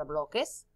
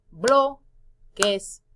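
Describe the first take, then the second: First: Said in the usual way. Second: "bloques" as loud blo, pause, ques; split into syllables. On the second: Shown as a demonstration. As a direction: break "bloques" into two clear beats. ("bloques" sílaba por sílaba, fuerte al inicio) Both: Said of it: "Separar en sílabas".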